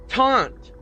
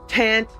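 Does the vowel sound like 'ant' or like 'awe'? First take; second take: awe; ant. First: The vowel sounds like the one in 'awe'. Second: The vowel sounds like the one in 'ant'. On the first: The speaker calls it right. "you say taunt" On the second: The speaker calls it wrong. "you don't say tant"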